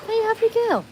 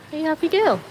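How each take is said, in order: First: Extremely high dog-cooing voice; tip-top pitch, gushing pet voice; squeaky pet talk. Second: High, affectionate dog voice; playful doggy question; pet talk. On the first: Asking the dog, higher take. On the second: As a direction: ask the dog in a raised pitch. Asking the dog, first take. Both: Real, not acted.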